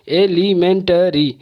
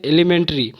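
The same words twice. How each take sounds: First: elementary slowly split into five beats; syllable by syllable. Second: Said in the usual way. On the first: Shown as a demonstration. Teacher demonstrating five syllables, elementary slow and broken up. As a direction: break elementary apart, each syllable on its own. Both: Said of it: "तोड़ तोड़ के आवाज़".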